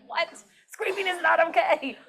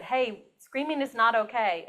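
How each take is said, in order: First: Mock disbelief, pitched high; incredulous retort. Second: Said in the usual way. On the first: Teacher to first grader who says screaming is okay, incredulous. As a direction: retell it as a high, taken-aback teacher's correction. Taken aback by child's contradiction.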